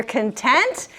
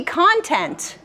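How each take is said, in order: First: "content" said kun-TENT; "content" with weak first syllable, stressed TENT; stress on second syllable. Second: "content" said CON-tent; "content" with open O in stressed CON; stress on first syllable. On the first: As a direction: hit TENT in "content", meaning satisfied. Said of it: "is one way to say this word". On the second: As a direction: hit CON in "content", meaning information. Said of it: "is another way to say this word". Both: Shown as a demonstration.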